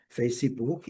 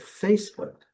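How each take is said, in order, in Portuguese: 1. É falado com pronúncia do português brasileiro. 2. É falado com pronúncia do inglês. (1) "é aqui no Brasil" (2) "agora a pronúncia no exterior é"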